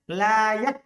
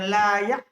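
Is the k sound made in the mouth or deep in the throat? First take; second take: mouth; throat. First: The k is made clearly in the mouth. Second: The k is made too deep, like a glottal stop. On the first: The speaker calls it right. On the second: The speaker calls it wrong.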